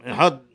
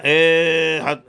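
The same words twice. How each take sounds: First: احاد said correctly, short opening syllable; correct pronunciation. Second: احاد with a long, loud first vowel; mispronounced احاد, first syllable held long; wrong pronunciation. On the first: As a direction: keep the first vowel of احاد brief. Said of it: "درست تلفظ کنیم". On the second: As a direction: drag out the opening vowel of احاد. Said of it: "این غلطه". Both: Shown as a demonstration.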